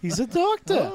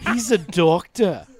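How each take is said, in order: First: It is said with a rising lilt. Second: It is said flatly, without a lilt.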